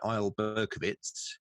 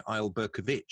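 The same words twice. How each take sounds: First: "Berkovitz" ending in a crisp "itz"; "Berkovitz" as an Israeli name, ending "-itz"; Israeli name pronunciation. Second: "Berkovic" as a Croatian name, "-ich" ending; Croatian name pronunciation. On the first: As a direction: say "Isle Berkovitz" with the final "itz" sound. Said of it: "an I C in Israeli would be Itz". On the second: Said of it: "if Isle Berkovitz had been Croatian". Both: Shown as a demonstration.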